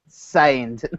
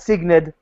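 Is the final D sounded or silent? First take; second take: silent; sounded. First: The final D is silent, French-style. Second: The final D is clearly sounded. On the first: The speaker calls it right. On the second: The speaker calls it wrong.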